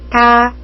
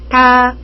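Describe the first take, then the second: No difference in how they are said.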